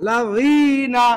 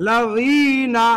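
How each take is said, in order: Both takes have the same delivery.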